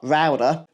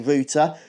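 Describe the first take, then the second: First: The word is said with an American pronunciation. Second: The word is said with a British pronunciation. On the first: "not router" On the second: "we British do say router"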